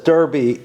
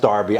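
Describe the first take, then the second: First: The first vowel sounds like 'er'. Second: The first vowel sounds like 'ar'. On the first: The speaker calls it wrong. "what I saw spelled as Derby" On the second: The speaker calls it right. "is actually sp- pronounced Darby"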